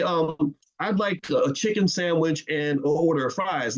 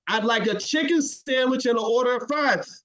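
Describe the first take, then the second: First: Said in the usual way. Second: Same order again, firmly and higher; insistent repeated order. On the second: Retold or imitated. Customer insisting on the order, higher and firmer. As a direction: say it again with more push. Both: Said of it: "And you say".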